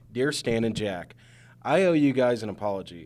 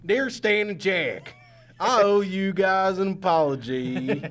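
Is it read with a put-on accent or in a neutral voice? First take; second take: neutral; accent. First: It is read in the speaker's normal voice. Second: It is read with a put-on regional accent. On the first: The speaker calls it wrong. "I should have said it with an accent" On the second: The speaker calls it right. "said it with an accent"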